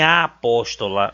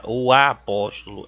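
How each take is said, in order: First: The article "a" set apart before apóstola; stress on wrong article. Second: "o" picked out before apóstolo, lower pitch; stress on right article. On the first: Teacher showing students the wrong gender, stressed article. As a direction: lean on "a" in "a apóstola". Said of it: "não tem a apóstola". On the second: Teacher correcting the noun's gender, stressed article. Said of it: "é o apóstolo". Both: Shown as a demonstration.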